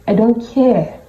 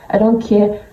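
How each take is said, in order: Both takes have the same delivery.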